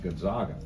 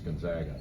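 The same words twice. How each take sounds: First: The middle syllable sounds like 'zog'. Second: The middle syllable sounds like 'zag'. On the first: The speaker calls it wrong. "a national national issue of it being called Gonzaga" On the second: The speaker calls it right. "the right way to pronounce Gonzaga"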